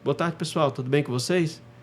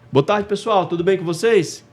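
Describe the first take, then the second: First: It is said quietly, with low energy. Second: It is said loudly, projected to a crowd.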